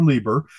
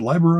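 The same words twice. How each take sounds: First: Lieber with a long ee sound; pronounced LEE-ber. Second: Leiber with a long eye sound; pronounced LY-ber. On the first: Unsure reader offering the other option, Lieber said LEE-ber. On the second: Unsure reader trying out a name, Leiber said LY-ber. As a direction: say Leiber to rhyme with fiber. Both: Shown as a demonstration. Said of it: "should have heard it said out loud".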